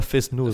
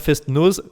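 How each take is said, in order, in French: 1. La première partie se prononce 'fesse', sans t. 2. La première partie se prononce 'fest', avec un t. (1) "on dit pas fest-nose" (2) "on dit bien fest-nose"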